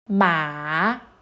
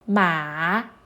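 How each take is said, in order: The two takes are said the same way.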